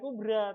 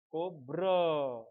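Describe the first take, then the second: First: The final syllable ends in a light 'ra' sound. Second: The final syllable ends in a heavy 'ro' sound. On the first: The speaker calls it wrong. "bukan bukan kubra" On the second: The speaker calls it right. "Itu juga pakai ro. ... tapi kub kubro"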